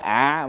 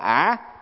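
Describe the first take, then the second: First: The syllable is said with a low, glottalized tone. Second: The syllable is said with a dipping tone. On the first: "chứ không phải ạ" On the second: "không phải là ả"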